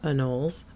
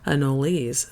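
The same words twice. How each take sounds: First: The final vowel is silent. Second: The final vowel is pronounced. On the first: "which is the Americanized pronunciation" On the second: "this word originated from a language with no silent vowels"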